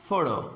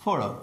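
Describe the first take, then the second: First: "فورو" with the weight on "فو"; first-syllable stress. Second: "فورو" said lower, with the weight on "فو"; first-syllable stress. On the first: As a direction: lean on "فو" in "فورو". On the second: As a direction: lean on "فو" in "فورو" and keep it low. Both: Shown as a demonstration. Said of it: "کجا استرس داره؟".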